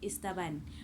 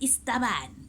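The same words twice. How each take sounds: First: The word is said in a plain, neutral tone. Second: The word is said in a scornful, mocking tone. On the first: It is simply a descriptive term. "they don't say it as istaban" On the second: It is meant to belittle the person. "but istaban, like, it it sounds different"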